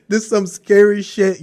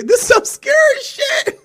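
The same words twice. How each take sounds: First: Said in the usual way. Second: Very high, wailing fright; mock scared cry. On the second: Staring at herself in the mirror, high frightened wail. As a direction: squeal it in a hammed-up panic.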